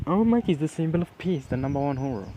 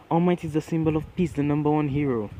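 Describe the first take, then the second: First: Mocking repeat. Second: Raised, mildly indignant insistence; earnest defence. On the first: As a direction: throw their words back in mock admiration. Bakugo parrots Kirishima's words back scornfully. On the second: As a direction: stand up for your hero. Kirishima defends All Might to Bakugo. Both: A narrator's reading.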